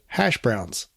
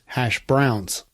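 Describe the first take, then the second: First: The stress falls on the usual word. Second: The stress falls on the unexpected word. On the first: The speaker calls it right. "most people just say" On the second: The speaker calls it wrong. "emphasizing the wrong word"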